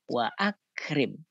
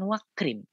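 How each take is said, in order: First: A glottal stop separates wa from akrim. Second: Wa runs straight into krim without a stop. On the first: The speaker calls it right. "ini bukti bahwa hamzahnya adalah hamzah qata" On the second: The speaker calls it wrong. "Tetap dibaca bukan wakrim"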